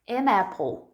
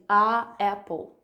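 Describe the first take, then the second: First: The n of the article links into the noun. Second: The article has no n and stands apart. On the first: The speaker calls it right. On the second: The speaker calls it wrong.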